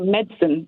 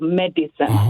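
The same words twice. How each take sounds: First: The middle i syllable is dropped. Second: The middle i syllable is pronounced. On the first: "I sometimes slur my my speech with. I'm British Caribbean, so I say medicine" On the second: "instead of medicine"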